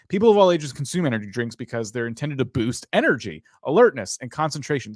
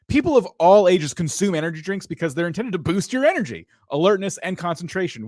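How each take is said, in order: First: It is read flatly with low energy. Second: It is read with lively, high energy.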